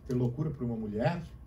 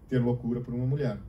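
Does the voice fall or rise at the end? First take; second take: rise; fall. First: The melody rises toward the end. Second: The melody falls toward the end. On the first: It is asked as a question. "Essa melodia da fala sobe" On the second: It is stated as an affirmation. "Eu estou afirmando, essa melodia baixa"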